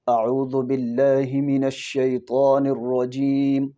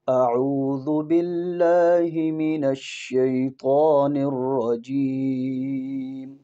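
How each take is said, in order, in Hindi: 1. आवाज़ साफ़ है, लेकिन सादी है। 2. आवाज़ भरी हुई और मधुर है। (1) "ये आवाज़ में सफाई है।" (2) "ये आवाज़ की खूबसूरती है।"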